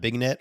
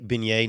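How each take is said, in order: First: The word ends in a 'net' sound. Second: The word ends in an 'ay' sound. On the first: The speaker calls it wrong. "not Bignet or something like that" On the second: The speaker calls it right. "I'm very proud you pronounced that correctly. Beignet"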